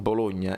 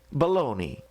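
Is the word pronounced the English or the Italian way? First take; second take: Italian; English. First: It is said with the Italian pronunciation. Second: It is said with the English pronunciation. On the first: "in italiano si dice Bologna" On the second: "In inglese, ... si pronuncia?"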